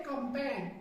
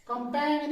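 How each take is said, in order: First: कंपेन as "kam-pen", silent G; correct pronunciation. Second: कंपेन loud, with G sounded at the end, "kam-peng-n"; wrong pronunciation. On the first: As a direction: say कंपेन ending cleanly on N. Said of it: "इसको पढ़ते हैं". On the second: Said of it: "नहीं पढ़ते". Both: Shown as a demonstration.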